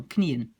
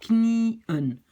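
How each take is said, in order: First: Said in the usual way. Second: "knieën" drawn out as knee, then un; loud, careful two-part "knieën"; split syllables. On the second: Shown as a demonstration. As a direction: hold the first part of "knieën", then restart on un. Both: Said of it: "Même chose".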